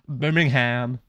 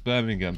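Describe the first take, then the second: First: The h in the ending is pronounced. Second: The h in the ending is silent. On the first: This is the other group's way of saying it. "For you guys, it's Birmingham. ... do you pronounce the H?" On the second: This is the speaker's own group's way of saying it. "for us it's Birmingham"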